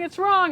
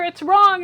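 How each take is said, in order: First: Second, slightly eased mock yell on "it's wrong"; Gordon Ramsay yelling. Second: "wrong" shouted high and very loud, falling; full mock yell on "it's wrong"; Gordon Ramsay yelling. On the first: TV chef repeating his shout at a cook, a little less loud. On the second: TV chef screaming at a cook, loudest take of "it's wrong". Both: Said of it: "Gordon Ramsay screamed at people".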